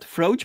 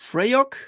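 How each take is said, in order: First: The word is said in a plain anglicized way. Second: The word is said with Scottish-sounding sounds. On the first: The speaker calls it wrong. "I pronounced it incorrectly" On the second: The speaker calls it right. "these weird Scottish like sounds"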